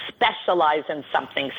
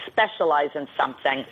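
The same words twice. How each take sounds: The two takes are said the same way.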